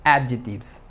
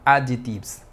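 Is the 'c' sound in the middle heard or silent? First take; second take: silent; silent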